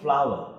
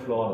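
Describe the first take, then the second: First: The word rhymes with 'power'. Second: The word rhymes with 'door'. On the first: The speaker calls it right. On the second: The speaker calls it wrong.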